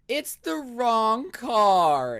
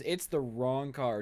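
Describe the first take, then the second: First: High, loud, drawn-out imitated wail; mock crying shriek. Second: Said in the usual way. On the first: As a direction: wail it slowly like a spoiled brat having a tantrum. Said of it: "a shriek, a cry". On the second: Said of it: "actually just say the words".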